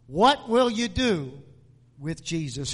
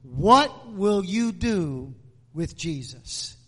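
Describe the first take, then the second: First: Said in the usual way. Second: Slowly stretched question. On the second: Shown as a demonstration. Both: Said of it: "I want to speak to you this morning on the subject".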